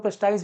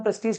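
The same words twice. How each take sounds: First: प्रेस्टाइज ending in "-ize", as some people say it; alternative pronunciation. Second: प्रेस्टीज ending in "-eej", rhyming with "siege"; pronunciation demo. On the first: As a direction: say प्रेस्टाइज with an "eye" vowel in the last syllable, pres-TIZE. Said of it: "कई लोग प्रेस्टाइज भी बोलते हैं". (प्रेस्टाइज में 'टा-इ' वाला उच्चारण) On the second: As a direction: say प्रेस्टीज with a long "ee" in the last syllable, pres-TEEJ. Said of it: "pronunciation में प्रेस्टीज कहते हैं". (प्रेस्टीज में 'टी' पर लंबी ई का उच्चारण) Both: Shown as a demonstration.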